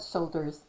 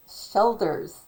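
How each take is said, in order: First: Said in the usual way. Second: "shelders", first vowel as in "shell"; altered vowel. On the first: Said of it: "not shoulders, shelders". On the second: Shown as a demonstration. Talker correcting a quoted word, pronouncing "shelders" with eh. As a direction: say "shelders" with an eh, not an oh. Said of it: "not shoulders".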